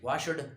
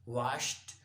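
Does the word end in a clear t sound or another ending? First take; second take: other ending; clear t. First: The ending is not a clear t sound. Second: The ending is a clear t sound. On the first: The speaker calls it wrong. "Don't say washed, washed, wrong" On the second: The speaker calls it right. "Clear T"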